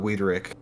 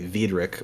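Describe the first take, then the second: First: The name is said in an English accent. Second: The name is said in a German accent.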